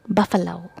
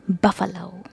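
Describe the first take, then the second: First: The stress falls on the first syllable. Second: The same.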